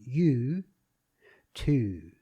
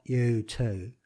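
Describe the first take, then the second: First: "you too" with drawn-out YEW and TEW vowels; spelt-out policeman pronunciation. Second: "you too" in broad Cockney vowels, drawn out; proper Cockney. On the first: Voice coach shows the policeman's spelt pronunciation, "you too" as yew-tew. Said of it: "Y E W T E W, which would be". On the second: Voice coach shows the wrong version, "you too" in proper Cockney. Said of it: "as in a proper Cockney". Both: Shown as a demonstration.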